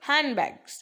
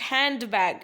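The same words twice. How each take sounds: First: The d in hand is dropped. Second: The d in hand is pronounced. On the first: The speaker calls it right. "डी आपका silent रहेगा" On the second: The speaker calls it wrong. "It's not हैंड बैग"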